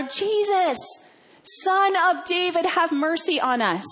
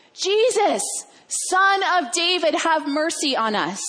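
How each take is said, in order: First: High, urgent call to be heard; insistent pleading shout, acted; yelling out louder. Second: High, raised pleading call; drawn-out cry for mercy, pitched up; yelling out. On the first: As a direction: cry out higher over a loud crowd. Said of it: "they yell out even louder". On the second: Acted. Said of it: "they're yelling out to Jesus".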